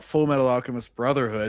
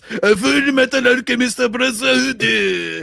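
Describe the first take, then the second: First: It is said with plain English pronunciation. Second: It is said with exaggerated Japanese-style pronunciation. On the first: The speaker calls it wrong. "It's not" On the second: The speaker calls it right. "you have to pronounce it properly"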